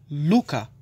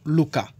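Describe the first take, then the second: First: The stress falls on the first syllable. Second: The stress falls on a later syllable. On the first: The speaker calls it right. "mão é luca" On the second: The speaker calls it wrong. "não luca"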